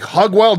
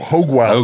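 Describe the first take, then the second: First: Hoge is said without a long O vowel. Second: Hoge is said with a long O vowel. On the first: The speaker calls it wrong. "Every time I looked at it, it was like" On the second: The speaker calls it right.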